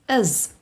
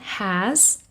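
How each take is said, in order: First: Said weakly with the h sound dropped. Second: Said in full with a clear, unreduced vowel. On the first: The word is unstressed in normal speech. "or even is. And that are the weak forms" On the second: The word is stressed or said on its own. "This is the strong form"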